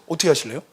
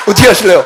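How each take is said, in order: First: Said in the usual way. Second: Laughing repeat. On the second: Real, not acted.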